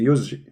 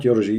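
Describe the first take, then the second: First: Yurji with a Z before the J, "yuzji"; corrected yurji. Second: Yurji with an R before the J; mispronounced yurji. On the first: Correcting the reader, yurji said with a Z sound. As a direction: say yurji with a buzzed Z replacing the R. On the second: Correcting the reader's slip, yurji said wrongly with an R. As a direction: say yurji with an R sound, not a Z. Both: Shown as a demonstration. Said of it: "Not yurji".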